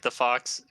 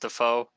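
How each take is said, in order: First: The name ends with a 'ks' sound. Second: The name ends in a plain vowel sound.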